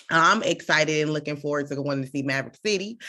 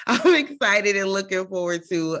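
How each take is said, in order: First: Said in the usual way. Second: Laughing. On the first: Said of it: "repeated list". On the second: Real, not acted. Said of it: "laughs, repeated".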